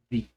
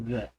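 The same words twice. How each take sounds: First: The vowel is long and clear, like 'ee'. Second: The vowel is short and weak, like 'uh'. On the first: The next word starts with a vowel sound. "other inicia con sonido de vocal. Por esa razón, el artículo lo pronunció the" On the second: The next word starts with a consonant sound. "suena con una consonante y por eso digo the"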